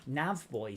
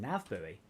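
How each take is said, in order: First: Buoy sounds exactly like the word boy. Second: Buoy does not sound like the word boy. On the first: It sounds like a word for a small child. The speaker calls it wrong. "nav boy sounds weird" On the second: It clearly refers to the floating marker. The speaker calls it right. "It's a nav buoy"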